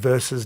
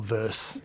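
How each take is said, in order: First: The word is said with two syllables. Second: The word is said with one syllable. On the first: The speaker calls it right. "It is versus" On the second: The speaker calls it wrong. "not verse"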